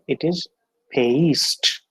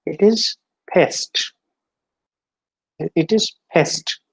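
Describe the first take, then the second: First: "paste" with a gliding ay; diphthong demo. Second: "pest" said slowly with a short e; slow and careful, "pest"; short e demo. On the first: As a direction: let the vowel in "paste" glide. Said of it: "See the difference". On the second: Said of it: "On the previous slide". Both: Shown as a demonstration.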